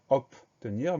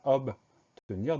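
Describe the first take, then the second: First: It is said quickly, with a blurred second consonant. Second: It is said carefully, with a clear b sound. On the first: This is a common slip in fast speech. The speaker calls it wrong. "quand on le prononce vite, on a tendance à dire obtenir" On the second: This is the proper pronunciation. The speaker calls it right. "mais c'est bien obtenir, donc O B au début du mot"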